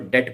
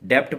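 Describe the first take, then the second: First: No 'b' sound is heard before the t. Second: A 'b' sound is heard before the final t. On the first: The speaker calls it right. "ये बी silent होता है, तो आपको इसको डेट पढ़ना है" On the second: The speaker calls it wrong. "कुछ इसको ना लोग डेप्ट पढ़ते हैं"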